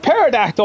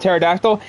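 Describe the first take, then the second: First: The word starts with a sounded P before T. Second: The word starts with a plain T sound. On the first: The speaker calls it wrong. "I've been pronouncing it pterodactyl all this time because I keep forgetting that the freaking P is silent" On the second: The speaker calls it right. "the P is silent in pterodactyl"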